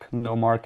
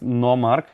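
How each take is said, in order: First: The name is said with an English pronunciation. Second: The name is said with a Slovenian pronunciation.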